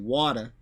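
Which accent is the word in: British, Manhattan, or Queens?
Queens. It is said in a nasal Queens accent. "We say water. It's a more nasal way to say it"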